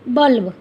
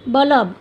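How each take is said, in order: First: बल्ब read as balb, with ल and ब joined; correct reading. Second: बल्ब read as ba-lab, with a vowel slipped between ल and ब; misspelled reading. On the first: Teacher reading the correct spelling बल्ब to students, balb. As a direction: say बल्ब as one syllable, balb. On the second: Teacher reading the wrong spelling बल्ब to students, ba-lab. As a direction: say बल्ब in two syllables, ba-lab. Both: Shown as a demonstration. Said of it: "अशुद्ध शब्द में से शुद्ध शब्द".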